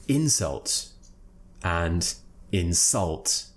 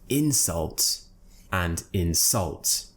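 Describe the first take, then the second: No difference in how they are said.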